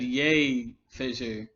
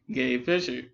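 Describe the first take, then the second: First: The claimed Y start of "Yay"; Y sound. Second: "Gay" with a clear hard G at the start; "Gay" started on a hard G, not a Y. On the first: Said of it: "no, I said". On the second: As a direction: say "Gay Fisher" with a strong G. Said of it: "there's a strong G sound". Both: Retold or imitated.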